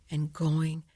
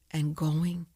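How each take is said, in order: Both takes have the same delivery.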